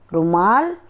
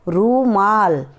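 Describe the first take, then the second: First: The first vowel u is short. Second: The first vowel u is long. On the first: The speaker calls it wrong. "पहले मैं अशुद्ध शब्द ही बोल रही हूँ" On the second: The speaker calls it right. "उसके बाद शुद्ध शब्द का उच्चारण करके बताऊंगी"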